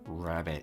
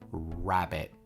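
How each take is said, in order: First: The word is said with the jaw closed. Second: The word is said with the jaw open.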